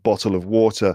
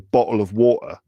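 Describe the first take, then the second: First: It is said in a general British accent. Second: It is said in a London accent. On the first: "in England or in the UK, it would be like" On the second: "some people in England, like in London, might say"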